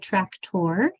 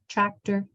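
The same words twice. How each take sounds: First: The last syllable is said like 'or'. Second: The last syllable is said like 'er'. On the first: The speaker calls it wrong. "We don't say tractor" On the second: The speaker calls it right. "We say tractor"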